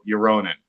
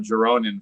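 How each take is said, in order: First: The name begins with a Y sound. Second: The name begins with an English J sound. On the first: The speaker calls it right. "it's actually" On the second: The speaker calls it wrong. "I've been calling him incorrectly"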